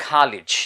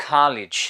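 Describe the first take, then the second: The two takes are said the same way.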